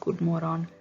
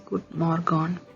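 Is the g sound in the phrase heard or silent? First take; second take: silent; heard. First: The g sound is left silent. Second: The g sound is pronounced clearly. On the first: "the G is silent... That's how you say it in Swedish" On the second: "when you read it in English, it says good morgon"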